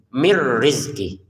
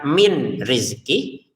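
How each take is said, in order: First: The n merges into r without any hum. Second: The n is pronounced clearly before the r. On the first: The speaker calls it right. "Bacalah dimasukkan, tapi nggak usah dengung" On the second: The speaker calls it wrong. "jangan dibaca min rizki"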